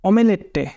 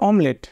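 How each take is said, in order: First: The word is said with four syllables. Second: The word is said with two syllables. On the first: It follows the spelling letter by letter. The speaker calls it wrong. "অমেলেটে উচ্চারণ করলে এরকমই হয়" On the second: It is the real everyday pronunciation. The speaker calls it right. "Actual উচ্চারণ"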